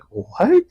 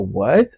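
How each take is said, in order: First: It sounds pleasantly surprised and smiling. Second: It sounds disgusted and put off.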